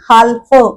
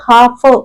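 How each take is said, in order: First: An l sound is heard before the f. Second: No l sound is heard before the f. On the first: The speaker calls it wrong. "हाल्फ असं ल चा उच्चार होतच नाही" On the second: The speaker calls it right. "आपण नुसतं हाफ इथे लिहिलंय असं म्हणतो"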